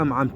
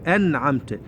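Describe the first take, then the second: First: The word is said quickly with its sounds blurred. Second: The word is said carefully with each sound clear. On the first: The speaker calls it wrong. "بشكل سريع ... خطأ" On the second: The speaker calls it right. "لا أنعمت"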